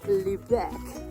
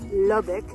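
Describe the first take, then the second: First: The name is said as Lubec. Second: The name is said as Lubbock. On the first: The speaker calls it right. "pronounced Lubec" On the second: The speaker calls it wrong. "not Lubbock"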